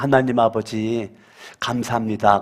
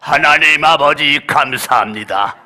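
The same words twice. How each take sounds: First: It is said in a calm, ordinary voice. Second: It is said in a loud, straining voice. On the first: This is how the speaker prays now. "지금은" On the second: He thought praying this way gave spiritual power. "옛날에는 그렇게 안 했어요"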